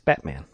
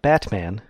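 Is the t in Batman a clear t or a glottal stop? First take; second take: glottal stop; clear t. First: The t is replaced by a glottal stop. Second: The t is clearly pronounced. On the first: The speaker calls it right. "you don't pronounce the T" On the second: The speaker calls it wrong. "It's not Batman"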